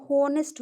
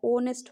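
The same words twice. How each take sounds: First: होनेस्ट with a spoken H in front; H wrongly sounded. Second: ऑनेस्ट begun on the O, no H; H silent. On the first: Teacher showing the wrong honest, H pronounced. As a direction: misread it as होनेस्ट, 'ho-nest'. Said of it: "अगर एच से हम करते हैं". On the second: Teacher showing honest with the H removed, silent H. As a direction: drop the H, ऑनेस्ट as 'oh-nest'. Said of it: "ओ से पहले एच को हटा दीजिए". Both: Shown as a demonstration.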